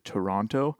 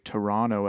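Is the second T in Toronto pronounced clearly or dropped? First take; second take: clearly; dropped. First: The second T is pronounced clearly. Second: The second T is dropped or barely heard. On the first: This is how Americans often say it. "as opposed to Toronto. I notice people in the States say Toronto and they pronounce the T a lot more" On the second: This is how Canadians often say it. "I think people from Canada often say Toronto"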